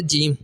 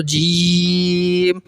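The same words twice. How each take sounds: First: Said in the usual way. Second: "جیم" with a very long held ee; slow chanted "جیم", closing on a hummed m; five-count elongation. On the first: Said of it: "پانچ الف کی مقدار". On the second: Shown as a demonstration. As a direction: stretch "جیم" steadily on one level note. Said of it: "پانچ الف کی مقدار آپ نے جیم کو پڑھنا".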